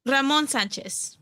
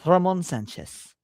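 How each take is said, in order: First: Slow name in a Latina Spanish accent. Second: Put-on copying a Latina Spanish accent on "Ramon Sanchez"; a learner's go at a Spanish accent; attempted Latina accent. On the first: Shown as a demonstration. Co-host shows streamer the name, Latina accent. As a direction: say it the Spanish way, "Ramon Sanchez". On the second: Streamer copies co-host's pronunciation, attempted Spanish accent. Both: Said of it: "with your Latina accent".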